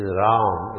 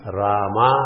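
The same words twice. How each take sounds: First: RAM as one long syllable ending on m; no vowel after the m of Ram; Sanskrit Ram. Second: RAMA with both vowels long and open; South Indian Rama. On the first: Teacher giving the Sanskrit form, Ram in one syllable. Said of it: "It is Ram in Sanskrit". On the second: Teacher showing South Indian version, Rama in two open syllables. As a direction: finish Rama on a full maa. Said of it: "is the South Indian version". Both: Shown as a demonstration.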